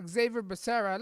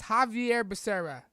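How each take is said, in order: First: "Xavier" said as English ZAY-vee-er; "Xavier" with an English Z sound at the start; English name. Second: "Javier" said Spanish-style as hah-vee-AIR; "Javier" with a breathy H at the start, stress on the end; Spanish pronunciation. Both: Shown as a demonstration. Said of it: "You know how they pronounce this name".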